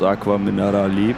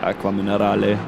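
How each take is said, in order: First: The name is said the English-speaking way. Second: The name ends with an E sound. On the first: The speaker calls it wrong. "that's just how the English speaking people pronounce the name" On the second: The speaker calls it right. "because actually it's an E"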